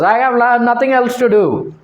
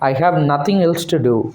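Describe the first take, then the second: First: It is spoken in a loud, open voice. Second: It is muttered in a low, quiet voice. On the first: "Sahib doesn't uh, come and tell like this" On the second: "mutters, speaks in a low voice"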